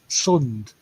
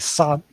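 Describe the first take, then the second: First: The vowel is central, as in English 'sun'. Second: The vowel is open, as in English 'sand'. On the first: This is the North Wales way. "up in North Wales they say sund" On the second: This is the South Wales way. "down here we'll say sand, sand as in like English"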